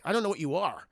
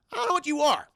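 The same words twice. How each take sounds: First: Said in the usual way. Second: High, small-voiced baby alien; puzzled little creature, pitched way up. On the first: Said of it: "Just like". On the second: Baby alien meeting a human for the first time, high baby voice. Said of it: "I'm, I'm, I'm a baby".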